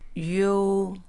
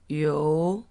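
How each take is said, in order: First: The pitch stays high and level. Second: The pitch rises from middle to high.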